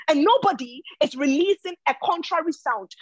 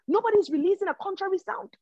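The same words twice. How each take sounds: First: Said in the usual way. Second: Higher and faster, preaching it home; rising fervour. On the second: Real, not acted. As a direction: lift the line up and drive it faster. Preacher repeats his point, building.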